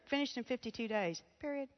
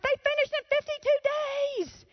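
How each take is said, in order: First: It is said in a flat, plain way. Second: It is said with loud, excited emphasis.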